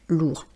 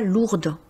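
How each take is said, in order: First: The final consonant is silent. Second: The final D sound is pronounced. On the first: The speaker calls it right. "Donc on dira des bagages lourds" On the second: The speaker calls it wrong. "On ne dit pas lourde"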